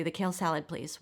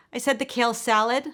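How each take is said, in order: First: Sheepish, small-voiced order; softening to a meek finish. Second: Louder, higher insistent repeat; exasperated, pitched-up repetition of the order. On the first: A narrator's reading. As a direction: order timidly, trailing off on please. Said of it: "she looks up sheepishly". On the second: Acted. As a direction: raise your voice to be heard. Repeats order to deaf server.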